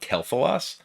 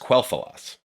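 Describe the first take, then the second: First: The name begins with a plain k sound. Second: The name begins with a kw sound. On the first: The speaker calls it wrong. "It was pronounced with like a, a K sound" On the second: The speaker calls it right. "It is Quel'Thalas because that's what like the voice lines and stuff say"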